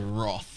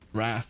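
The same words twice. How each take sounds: First: The word has a posher, more formal pronunciation. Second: The word has its common everyday pronunciation. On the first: It is said the older, proper way. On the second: It is said the way most people now say it.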